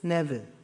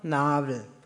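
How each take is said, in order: First: The first vowel is a short E-like sound. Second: The first vowel is a long A. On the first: This is how it is said around Aschaffenburg. "kommt im Rheinfränkisch-Hessischen ein kurzes Ä vor" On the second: This is how it is said in Lower East Franconian. "wird das alte E zu einem langen A"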